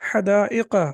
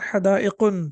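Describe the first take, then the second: First: The word ends in a plain vowel, no n. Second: The word ends with an added n sound. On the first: The speaker calls it right. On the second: The speaker calls it wrong.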